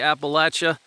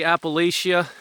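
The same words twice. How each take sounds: First: It is said the Southern US way. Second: It is said the Northern US way.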